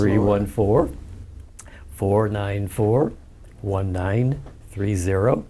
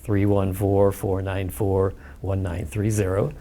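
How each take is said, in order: First: The number is said slowly. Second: The number is said fast.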